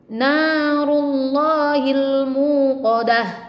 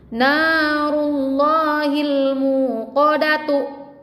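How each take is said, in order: First: The last word ends with a soft h sound. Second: The last word ends with a full t sound. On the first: The reading stops at this word. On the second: The reading continues past this word.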